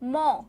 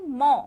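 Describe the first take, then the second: Both takes have the same delivery.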